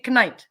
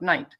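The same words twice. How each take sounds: First: The word begins with a pronounced K sound. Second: The word begins with no K sound. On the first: The speaker calls it right. "Knight should be knight" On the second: The speaker calls it wrong. "and not knight"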